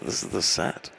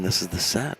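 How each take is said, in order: First: It is spoken in a whisper. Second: It is spoken in a normal voice.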